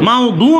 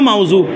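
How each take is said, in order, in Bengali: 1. মধ্যবর্তী ব্যঞ্জনটি d ধ্বনি। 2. মধ্যবর্তী ব্যঞ্জনটি z-এর মতো ধ্বনি। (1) "মাউদু নয়" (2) "এটা জ কিন্তু ফার্সিতে উচ্চারণ"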